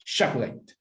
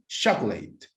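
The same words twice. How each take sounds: First: "chocolate" said clearly for counting syllables; teacher's dictation of "chocolate"; slow model word. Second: "Chocolate" said as two syllables, CHOC-lit, no middle vowel; listen: "Chocolate" as CHOK-lit; teacher stressing the two-beat "Chocolate"; two-syllable model. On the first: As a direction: model "chocolate" slowly as CHOC-o-late. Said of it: "How many syllables can you hear?". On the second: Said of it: "Listen to me". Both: Shown as a demonstration.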